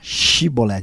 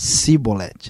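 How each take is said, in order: First: The word begins with a 'sh' sound. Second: The word begins with a plain 's' sound. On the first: This is the form the Ephraimites could not say. "O efraimita não conseguia falar" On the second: This is how an Ephraimite said it. "ele falava"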